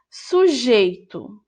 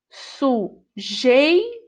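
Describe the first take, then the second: First: Said in the usual way. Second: "Sujeito" split slowly into su-jei-to, rising at the end; syllables drawn out. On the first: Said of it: "Sujeito (word read before sounding out)". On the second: Shown as a demonstration. Teacher sounding out "Sujeito" for pupils, slow and syllabified. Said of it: "O encontro vocálico (teacher splits word)".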